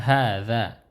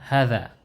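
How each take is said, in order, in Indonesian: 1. Vokal pertama dipanjangkan. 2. Vokal pertama dibaca pendek. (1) "hanya ini dipanjangkan" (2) "Jadi bukan hadza, bukan begitu"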